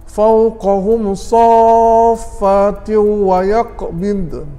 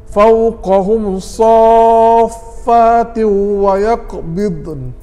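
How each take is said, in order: The two takes are said the same way.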